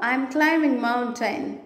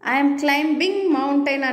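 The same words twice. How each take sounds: First: The b sound in climbing is silent. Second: The b sound in climbing is pronounced. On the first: The speaker calls it right. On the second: The speaker calls it wrong.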